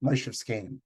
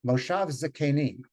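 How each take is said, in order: First: Moshev Skenim, S K cluster with no vowel, Yiddish style; Yiddish pronunciation. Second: Moshav Zakenim with a full a in Zakenim, the Hebrew way; Hebrew pronunciation. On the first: Teacher gives the Yiddish form: Moshev Skenim, clustered SK. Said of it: "it is pronounced Skenim". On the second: Teacher gives the Hebrew form: Moshav Zakenim, full vowels. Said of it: "And in Hebrew". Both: Shown as a demonstration.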